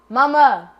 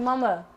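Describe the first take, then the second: First: The name is called at a higher volume. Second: The name is called at a lower volume.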